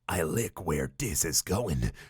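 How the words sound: It is said in a sultry, seductive voice.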